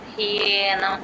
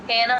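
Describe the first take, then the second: First: The word starts with 'hye' with a clear y glide. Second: The word starts with 'he' without a y glide. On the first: The speaker calls it right. "హియే ఆ యా వినిపించాలి clear గా. హ్యేనం అలా రావాలి" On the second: The speaker calls it wrong. "హేనం అని చెప్పేస్తారు. అలా కాదు"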